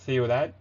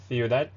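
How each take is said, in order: First: The c is pronounced as a th sound. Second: The same.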